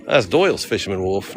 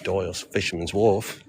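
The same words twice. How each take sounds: First: Failed Australian accent sliding into Boston. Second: Tentative attempt at an Australian accent. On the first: Tourist failing at the local accent, sounding Boston. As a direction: aim at Australian, land in Boston. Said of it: "No, that's Boston again". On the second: Tourist testing how locals say it, Australian accent. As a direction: try it lightly in mock Australian. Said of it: "how do you say that in Australian accent?". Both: Shown as a demonstration.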